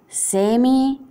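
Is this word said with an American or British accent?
British. It is said with a British English accent. "inglese britannico"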